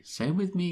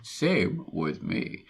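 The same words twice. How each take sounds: First: Higher-pitched quoted reply; quoted agreement. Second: Slow, stretched-out reply; drawn-out quoted agreement. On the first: Host reading out a brief agreement, higher-pitched. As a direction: say it higher, at normal pace. Reads a quote out twice, differently. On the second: Host repeating the brief agreement, slow and drawn-out. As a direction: draw each word out slowly. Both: Acted.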